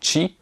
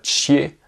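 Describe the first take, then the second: First: The syllable ends with a close 'ee' vowel. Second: The syllable ends with an open 'eh' vowel. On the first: The speaker calls it right. "mais chi" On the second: The speaker calls it wrong. "c'est pas chier"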